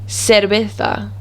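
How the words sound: The c is said with an s sound. This is the Latin American way of saying it. "the th sound with a C is actually an S"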